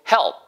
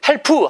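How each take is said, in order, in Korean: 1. 마지막 p는 뒤에 모음 없이 끊어요. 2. 마지막 p 뒤에 모음 소리가 하나 더 붙어요. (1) "소리를 먹는 것처럼. 푸 다음에는 의 소리를 집어넣으면 안 되니까" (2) "help 하지 마시고"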